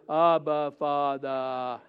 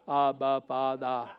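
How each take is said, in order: First: It is said with excited, joyful energy. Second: It is said flatly, like a recorded message. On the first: The speaker feels real closeness and gladness. The speaker calls it right. "Say it with excitement, with joy. It's like" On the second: The words are recited without feeling. The speaker calls it wrong. "You sound like a pre-recording message"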